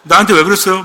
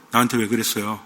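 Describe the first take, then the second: First: Louder movie-line impression; raised-voice dramatic question; 이병헌. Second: Low, hushed film-hero question; quiet, much lowered dramatic question; movie-line impression. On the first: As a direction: throw the film line out louder. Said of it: "이병헌인가 누가". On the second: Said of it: "그 무슨 영화죠?".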